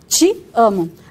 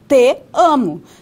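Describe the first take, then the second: First: The t is a ch sound, followed by i. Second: The t is plain, followed by an e sound. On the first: This is how it is actually spoken. "Por isso que nós usamos a africada, o tchá" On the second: This is how it would sound if spoken as written. "nós não falamos com E, senão nós falaríamos te amo"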